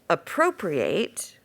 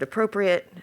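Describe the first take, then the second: First: The last syllable is a full 'ate' sound. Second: The last syllable is a weak 'it' sound. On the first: Something is taken for oneself. "is to take for oneself" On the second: Something is suitable or fitting. "it means suitable or fitting"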